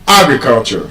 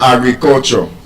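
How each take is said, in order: First: The stress is on the first syllable. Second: The stress is not on the first syllable. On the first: The speaker calls it right. "stressed on the first syllable" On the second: The speaker calls it wrong. "It's not"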